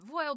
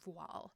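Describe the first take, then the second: First: The word rhymes with Foyle. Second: The word is said the French way, like vwahl. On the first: "I pronounce it voile because it's it's a joke" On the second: "I think the correct pronunciation is technically voile"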